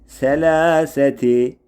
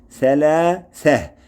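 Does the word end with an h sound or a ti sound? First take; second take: ti sound; h sound. First: The word ends with the syllable ti. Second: The word ends with a soft h sound. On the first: The reciter continues without stopping. "selâseti yazılışı böyle" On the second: The reciter stops on this word. "şöyle durulur"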